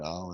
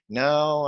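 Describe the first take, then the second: First: The word is voiced low and deep, from below. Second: The word is voiced nasally, through the nose. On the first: "I'm speaking into my stomach" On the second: "I'm speaking through my nose"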